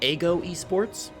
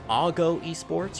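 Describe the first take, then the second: First: The first word sounds like 'ego'. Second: The first word sounds like 'ago'. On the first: The speaker calls it wrong. "I instead said Ago Esports" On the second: The speaker calls it right. "I think it's pr- correctly pronounced as Ago Esports"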